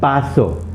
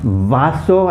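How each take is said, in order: First: The word begins with a B sound. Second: The word begins with a V sound.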